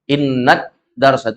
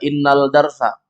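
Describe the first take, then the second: First: The L sound blends into the following d. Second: The L sound is clearly pronounced before darsa. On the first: The speaker calls it right. "Enggak kedengaran alnya" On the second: The speaker calls it wrong. "enggak dibaca innal darsa"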